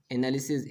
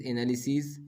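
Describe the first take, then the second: First: एनालिसिस with a short final "-sis"; singular -is ending. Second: एनालिसिस with a long final "-seez"; plural -es ending. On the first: Teacher giving the singular for pupils, short "-sis" in एनालिसिस. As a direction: end एनालिसिस on a short i and hissed s. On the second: Teacher giving the plural for pupils, long "-seez" in एनालिसिस. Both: Shown as a demonstration. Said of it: "आईएस को ईएस में बदलने से".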